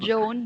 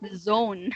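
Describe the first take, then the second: First: The word begins with a j sound. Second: The word begins with a buzzing z sound. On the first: The speaker calls it wrong. "It's not" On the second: The speaker calls it right. "but zone"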